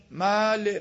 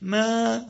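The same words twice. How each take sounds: First: "مال" with a dry vowel, no tint of y; dry wrong vowel. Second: "ما" with the vowel lightly tinged toward y; minor imala. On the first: Teacher shows what reciters avoid, "مال" said dry. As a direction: stretch "مال" with a plain, dry long a. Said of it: "اینقدر خشک و اینجوری ما نیست". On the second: Teacher shows minor imala, "ما" tilted slightly toward y. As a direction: give "ما" a hint of an i sound. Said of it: "ببین، یه بوی از یا". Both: Shown as a demonstration.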